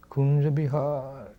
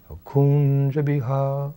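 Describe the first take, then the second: First: Slow, drawn-out name, softer; ecstatic cry. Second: Slow, higher, drawn-out cry of longing; ecstatic cry. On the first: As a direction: let the name trail out slowly in longing. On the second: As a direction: stretch out the name, overcome with devotion. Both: Retold or imitated. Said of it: "like this".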